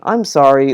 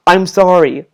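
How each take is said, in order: First: Understated sincere apology; acted humble apology, no edge; truly sorry. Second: Mock apology with an impatient edge; imitated grudging apology; overly defensive. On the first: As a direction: say sorry plainly and gently, meaning it. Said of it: "If he was truly sorry". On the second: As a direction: say sorry as a defensive brush-off. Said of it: "be overly defensive".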